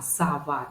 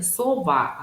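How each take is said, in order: First: САВА with A in the first syllable; first vowel of САВА opened to A; natural vowel reduction. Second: СОВА with a full O in the first syllable; spelling pronunciation. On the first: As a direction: say САВА as spoken, sa-VA. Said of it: "а как оно произносится". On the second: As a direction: say СОВА as written, so-VA. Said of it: "хотя мы говорим не сова". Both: Shown as a demonstration.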